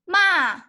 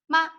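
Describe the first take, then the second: First: The pitch falls sharply from high. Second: The syllable is very short and light. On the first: "the fourth tone is going down" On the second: "the neutral tone is a dot, very short"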